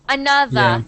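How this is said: The final R sound is dropped. "British, you don't pronounce the R's. You would say another"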